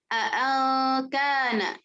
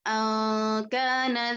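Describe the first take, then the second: First: Both glottal stops are pronounced fully and clearly. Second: Only a single glottal stop is pronounced. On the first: "membaca dengan tahqiq dua hamzahnya" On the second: "dengan satu hamzah saja"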